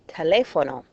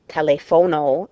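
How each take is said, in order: First: The stress falls on the expected syllable. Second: The stress falls on an unexpected syllable. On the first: The speaker sounds like a native speaker. The speaker calls it right. "get your stress on the correct syllable" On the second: The speaker sounds like a foreigner. The speaker calls it wrong. "saying teléfono instead of"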